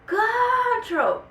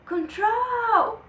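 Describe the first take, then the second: First: The stress falls on the first syllable. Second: The stress falls on the second syllable. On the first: The speaker calls it wrong. "Não, não é" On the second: The speaker calls it right. "Então quem é mais forte é o troll"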